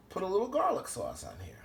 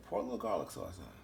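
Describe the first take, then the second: First: Said in the usual way. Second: Low, soft, quick mutter to himself; quiet aside. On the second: Real, not acted. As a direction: toss it off under the breath as he pours.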